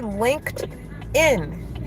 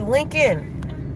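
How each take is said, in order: First: The k and d sounds are both clearly said. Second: The d sound after the k is left out. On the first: The speaker calls it right. "she could not say linked in" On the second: The speaker calls it wrong. "She just would say LinkedIn"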